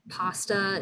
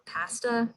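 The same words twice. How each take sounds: First: It is said with an American accent. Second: It is said with a Canadian accent.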